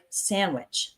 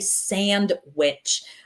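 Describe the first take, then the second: First: The 'd' sound disappears entirely. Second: The 'd' sound is clearly pronounced. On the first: The speaker calls it right. "that D just kind of disappears. So we say it like sandwich" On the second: The speaker calls it wrong. "We don't really say sandwich"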